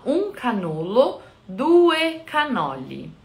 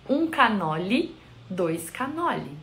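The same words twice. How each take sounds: First: "um canolo, due canoli" said slowly, the Italian way, with full final vowels; Italian pronunciation. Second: "um canoli, dois canoli" said the Brazilian way, with "dois" and an -i ending; Portuguese form. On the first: Explaining how it is said there, slow Italian pronunciation of "um canolo, due canoli". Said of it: "é como se diz lá". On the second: Showing the translation to Portuguese, Brazilian pronunciation of "um canoli, dois canoli". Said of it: "A tradução pro português vai sair". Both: Shown as a demonstration.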